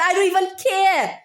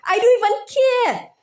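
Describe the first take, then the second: First: Said in the usual way. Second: Exasperated outburst. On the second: Real, not acted. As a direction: throw it out in real exasperation. Escalating rant, repeated line.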